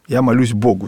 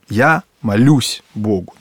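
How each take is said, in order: First: The stress falls on the word Богу. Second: The stress falls on the word молюсь. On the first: The focus is on God. "с акцентом, да, на Боге" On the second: The focus is on the act of praying. "здесь делается акцент вот на молитве"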